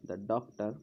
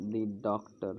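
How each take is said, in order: First: Short open vowel in "the", like "duh". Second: Long ee vowel in "the"; "the" said as "dee". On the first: Shown as a demonstration. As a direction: say "the" as "da" before "doctor". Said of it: "तो इसे दा पढ़ेंगे". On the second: Real, not acted. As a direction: say "the" as "dee" before "doctor". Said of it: "मैं दी बोल गया था".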